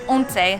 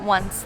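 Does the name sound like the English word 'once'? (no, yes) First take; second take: no; yes. First: It is not said like the English word once. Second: It is said like the English word once. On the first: The speaker calls it right. "We're starting off at a place called Once" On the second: The speaker calls it wrong. "not once, like I kept calling it"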